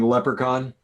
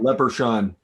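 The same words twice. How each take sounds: First: It is pronounced in a standard English way. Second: It is pronounced with a French-sounding mispronunciation. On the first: The speaker calls it right. "Instead of saying leprechaun" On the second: The speaker calls it wrong. "she called it leprechaun"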